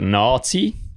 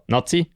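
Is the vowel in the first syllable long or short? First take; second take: long; short. First: The first vowel is held long. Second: The first vowel is cut short. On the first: "langes A" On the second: "kurzes A"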